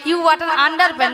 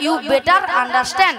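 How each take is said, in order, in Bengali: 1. এটি 'you butter under pant' এর মতো শোনায়। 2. এটি 'you better understand' এর মতো শোনায়। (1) "নয়" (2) "বলো"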